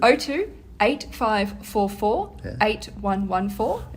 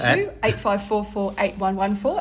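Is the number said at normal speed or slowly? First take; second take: slowly; normal speed. First: The number is said more slowly. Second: The number is said at normal speed.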